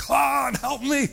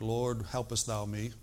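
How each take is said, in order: First: High, loud shout for help; acted panicked scream to God; desperate crying out. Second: Restrained, understated mock-formal prayer; mock Presbyterian tone. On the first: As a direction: yell it like a drowning man. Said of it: "He cried out and said". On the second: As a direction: pray it politely, with no urgency at all. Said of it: "in a Presbyterian tone like".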